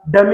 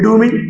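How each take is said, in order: First: The first vowel is short, like 'duh'. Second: The first vowel is long, like 'doo'. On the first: The speaker calls it right. "पता चला डमी होता है" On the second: The speaker calls it wrong. "वो बच्चा कर रहा था डूमी डूमी"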